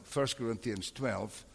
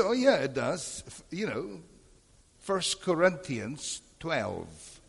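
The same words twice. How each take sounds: First: Said in the usual way. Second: Higher voice, slowing right down on the reference; insistent retort. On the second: Retold or imitated. Pastor insisting to the visiting teacher, insistent and slow. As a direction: spell it out slowly as if not understood.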